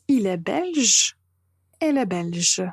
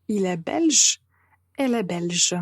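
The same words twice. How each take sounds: The two takes are said the same way.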